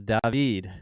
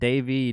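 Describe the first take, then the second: First: The name is said the non-American, international way. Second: The name is said the usual American way. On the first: The speaker calls it right. "It's David. You can go anywhere in the world, and that is how my name is pronounced, except in the U S" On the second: The speaker calls it wrong. "It's not David, man"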